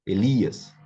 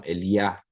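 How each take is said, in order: First: Said in the usual way. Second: Eliá ending on a stressed iá, with no s; Hebrew pronunciation. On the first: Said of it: "no português, normalmente". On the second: Shown as a demonstration. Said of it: "no hebraico".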